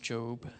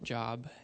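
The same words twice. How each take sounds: First: The vowel is a long 'oh' sound. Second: The vowel is a short 'o' as in 'odd'. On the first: It names the biblical figure. The speaker calls it right. "that's pronounced Job" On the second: It sounds like the word for work. The speaker calls it wrong. "not Job, as I've heard before"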